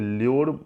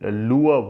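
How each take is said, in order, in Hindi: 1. शब्द के अंत में साफ़ र की आवाज़ सुनाई देती है। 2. शब्द का अंत बिना किसी र की आवाज़ के होता है। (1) "ल्योर बोला जाता है" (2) "प्रोनाउंसिएशन इसका सुना लुअब होता है, र यहाँ पे ना साइलेंट रहता है"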